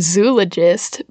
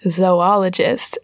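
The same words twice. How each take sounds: First: The first syllable sounds like 'zoo'. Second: The first syllable sounds like 'zoh'. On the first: The speaker calls it wrong. "so you could say, like, zoologist, but you don't" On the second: The speaker calls it right. "you just take the first O, ... the other O is devoted to ologist"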